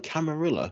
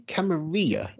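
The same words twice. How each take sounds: First: Camarilla with the L sounded, ending "RILL-ah"; UK pronunciation. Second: Camarilla with a silent double L, ending "REE-ah"; Spanish-style pronunciation. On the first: Shown as a demonstration. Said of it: "In the U K, we call it". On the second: Retold or imitated. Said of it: "you say Camarilla".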